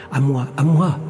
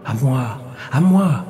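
First: Mild yelp, rising at the end. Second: Ringing cry. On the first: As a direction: lightly yap the claim as a rival voice. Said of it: "glapit une autre". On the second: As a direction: let the second cry ring out. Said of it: "cria une voix retentissante". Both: A narrator's reading.

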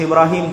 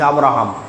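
First: Ibrahim, the Muslim form of Abraham; Arabic-style Ibrahim. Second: Abraham, the other community's form; English-style Abraham. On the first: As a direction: say Ibrahim with an opening i. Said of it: "আরবির উচ্চারণের পার্থক্য". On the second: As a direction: say Abraham with an opening a. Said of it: "ইংরেজি এবং আরবির উচ্চারণের". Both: Shown as a demonstration.

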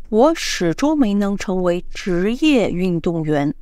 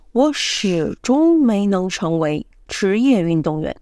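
First: 职业 pressed firmly; stress on 职业. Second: 始终 hit clearly; stress on 始终. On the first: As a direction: lean on 职业, professional. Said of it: "emphasize the professional". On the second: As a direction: lean on 始终, never. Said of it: "if I want to emphasize the never". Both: Shown as a demonstration.

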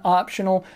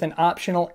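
First: Optional said with extra weight; stress on optional. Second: Said in the usual way. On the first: Shown as a demonstration. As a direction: lean into the word optional. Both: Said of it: "emphasis on optional".

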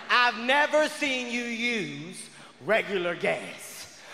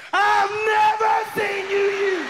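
First: Said in the usual way. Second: High, loud shout of accusation; loud as shit. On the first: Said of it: "the second time you say it". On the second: Acted. Woman repeating herself in an argument with her man, loud as shit. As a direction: repeat it at a high-pitched shout, case solved. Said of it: "you get loud as shit".

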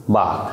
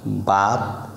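First: বাত with a firmly stressed opening বা; weighted first sound in বাত; pressure on বা. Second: Said in the usual way. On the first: Shown as a demonstration. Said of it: "বার উপরে একটা". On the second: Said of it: "আমরা জেনে গেলাম".

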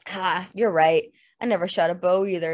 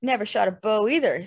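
First: Snarling little laugh on the opening "Ha"; snarling admission. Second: Said in the usual way. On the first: A narrator's reading. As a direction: admit it with a mild sneer. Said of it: "with a strange, snarling little laugh".

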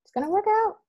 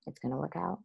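First: "It's gonna work out" jumped up high, insistent; pitched-up, determined "It's gonna work out"; emphatic mantra. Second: "It's gonna work out" murmured much softer, almost to herself; hushed, self-soothing "It's gonna work out"; quiet mantra. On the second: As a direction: say "It's gonna work out" softly under the breath, like a private reassurance. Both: Retold or imitated. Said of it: "every day just saying".

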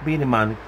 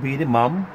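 First: "man" ending on an n sound; corrected name. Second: "mom" ending on an m sound; slip of the name. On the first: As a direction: say "Be the man", landing firmly on the final n. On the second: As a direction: say "be the mom", closing the lips on the last sound. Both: Real, not acted. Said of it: "Not, not be the mom".

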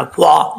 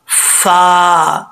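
First: फा said with lips pushed round, the wrong way. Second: फा with flat lips, teeth touching the lip; correct fa. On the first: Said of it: "ये गलत है". (गोल होंठों वाला गलत फा) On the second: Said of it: "ऊपर वाले जो दो दांत हैं". (होंठ गोल किए बिना सही फा) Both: Shown as a demonstration.

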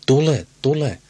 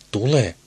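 First: Put-on higher, louder cackling old hag; cackling crone. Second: Lightly voiced cackling old woman; crone's cackle. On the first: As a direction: screech the summons like a witch. (kaakattava noitamainen huuto) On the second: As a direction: croak the call like an old crone, only a hint. (kevyesti kaakattava vanha eukko) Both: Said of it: "vanha nainen kaakatti".

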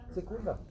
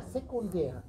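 First: Sekundär with the weight on the middle syllable, se-KUN-där; Sekundär, second syllable stressed to echo unter. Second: Said in the usual way. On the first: Shown as a demonstration. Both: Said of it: "Betonung liegt auf unter".

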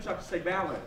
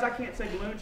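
First: "balloon" said the comic wrong way, like BAL-un; mispronounced balloon. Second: Said in the usual way. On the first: Shown as a demonstration. Magician blaming a speech problem, mispronounced "balloon". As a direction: say "balloon" with the weight on a short first syllable. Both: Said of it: "it's a speech problem".

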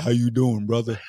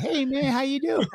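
First: Expected deep greeting. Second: Put-on very high, light boyish greeting; lightest voice. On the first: Retold or imitated. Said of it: "you gonna be like". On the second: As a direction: pitch it way up like a kid whose voice hasn't broken. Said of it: "like, the lightest voice".

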